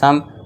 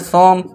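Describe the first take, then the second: First: The vowel is an open 'uh' sound. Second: The vowel is a rounded 'o' sound. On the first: This is how the word is actually read. "रियल में पढ़ते हैं सम" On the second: This is what the spelling rule predicts. "होना चाहिए था सोम"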